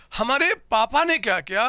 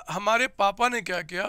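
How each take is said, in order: First: हमारे पापा ने क्या किया with a louder lift on ने; louder teasing question to the class; emphatic question. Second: Said in the usual way. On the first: Shown as a demonstration. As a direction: punch ने and let the question rise.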